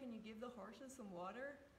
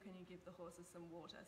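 First: It is said in a put-on American accent. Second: It is said in the speaker's own native accent.

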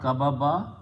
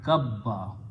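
First: Two b sounds are separated by a vowel. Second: The b is held as one doubled consonant. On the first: The speaker calls it wrong. "It will be pronounced not kababa" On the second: The speaker calls it right. "but kabba"

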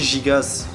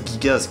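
First: The g sounds are soft, like a zh sound. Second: The g sounds are hard, like in go. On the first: It is read by French spelling rules. The speaker calls it wrong. "si on sait à peu près lire le français, ça devrait se prononcer Gigas" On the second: It follows the ancient Greek origin. The speaker calls it right. "vient de Gigas, qui signifie géant en grec ancien"

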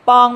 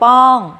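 First: The syllable is said on a high tone. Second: The syllable is said on a falling tone. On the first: "ไม้ตรี" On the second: "ไม้โท"

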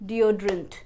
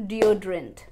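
The two takes are said the same way.

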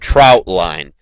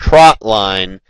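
First: The first word has the 'ow' vowel. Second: The first word has the short 'o' vowel. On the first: The speaker calls it wrong. "I've heard it pronounced" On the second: The speaker calls it right. "Trot line is the actual correct pronunciation"

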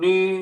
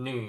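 First: It is said with the first Mandarin tone. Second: It is said with the third Mandarin tone. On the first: "เสียงที่1 นี" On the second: "เสียงที่3 หนี"

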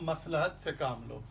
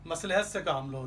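First: The vowel after the l is 'a'. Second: The vowel after the l is 'i'. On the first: The speaker calls it right. "लाम पर भी ज़बर है जिस तरह मीम पर है" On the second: The speaker calls it wrong. "लाम के नीचे ज़ेर लगा देते हैं"

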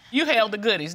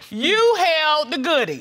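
First: It is said at a quieter, normal volume. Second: It is said at a louder volume.

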